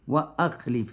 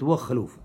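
First: A glottal stop separates wa from akhlif. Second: The words run together with no glottal stop. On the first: The speaker calls it right. "Нужно говорить «хамза туркаты»" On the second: The speaker calls it wrong. "Нельзя говорить «вахлюф», то есть «хамза аль-васра»"

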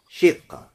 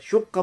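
First: The first vowel is an i sound. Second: The first vowel is a u sound. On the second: "Шукка можно сказать как?"

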